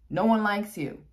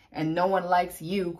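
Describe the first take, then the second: First: Louder, emphatic repeat. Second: Said in the usual way. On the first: Shown as a demonstration. Telling the Virgo's rival off, loud emphatic. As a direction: punch No one likes you up high and loud.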